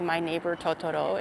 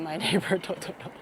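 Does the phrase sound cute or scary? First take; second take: scary; cute. First: It is said in a scary, ominous way. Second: It is said in a cute, sweet way. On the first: It sounds like a horror movie. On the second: It sounds like a gentle children's film. "cute Ghibli"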